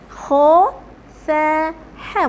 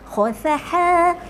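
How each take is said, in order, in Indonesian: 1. Setiap bunyi diucapkan perlahan dan terpisah. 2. Bunyi-bunyi itu disambung cepat menjadi satu kata. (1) "Mula-mula sebut dulu satu-satu" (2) "Lepas tu baru laju"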